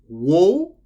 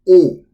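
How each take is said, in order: First: The syllable begins with a W sound. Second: The syllable begins directly with the vowel. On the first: "So wo or o" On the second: "Or it can be pronounced as o"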